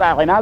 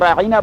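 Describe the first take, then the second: First: The middle vowel is short, with no 'ee' sound. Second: The middle vowel is lengthened into an 'ee' sound. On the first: Please attend to us. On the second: O shepherd.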